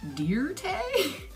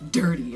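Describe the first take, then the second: First: The word is split into two slow, separate syllables. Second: The word is said in one smooth piece.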